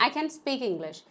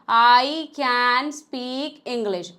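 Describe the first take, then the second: First: Words run together with a reduced can. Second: Each word is said separately and fully. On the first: It sounds fluent. The speaker calls it right. "मैंने कैन को पूरा बोला ही नहीं है" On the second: It sounds robotic. The speaker calls it wrong. "अलग अलग एक word को मत बोलेगा ... अगर आप ऐसे बोलेंगे तो आप रोबोट लगेंगे"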